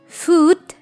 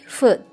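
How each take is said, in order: First: The vowel is said long. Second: The vowel is said short. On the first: The speaker calls it wrong. "bukan foot" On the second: The speaker calls it right. "Ada simbol U pendek di sana, ... tapi foot"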